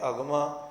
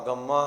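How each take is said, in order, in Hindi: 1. 'm' ध्वनि छोटी और एक बार है। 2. 'm' ध्वनि दोहरी और खिंची हुई है। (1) "जे कन्ने की मात्रा के नाल होएगा तो अगमा" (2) "जे टिप्पी लगी होई फिर आवेगा अगम्मा"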